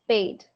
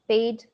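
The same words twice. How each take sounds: The two takes are said the same way.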